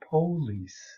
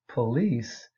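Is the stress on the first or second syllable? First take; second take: first; second. First: The stress is on the first syllable. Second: The stress is on the second syllable. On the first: This is the vernacular pronunciation. "puts the stress on the first syllable and it becomes police" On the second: This is the standard pronunciation. "Standard English says police"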